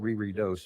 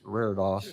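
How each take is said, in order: First: The word is said with three syllables. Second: The word is said with two syllables. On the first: The speaker calls it wrong. "It's not re-re-dose" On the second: The speaker calls it right. "It's RAREDOS"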